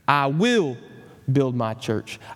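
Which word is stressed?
will. The word "will" carries the stress.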